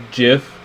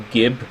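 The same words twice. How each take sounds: First: Gif with a hard G like gift; gif as in the file format. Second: Gib with a J sound, like jib; soft G gif. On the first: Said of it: "like the file format". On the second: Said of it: "should actually be called gif". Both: Shown as a demonstration.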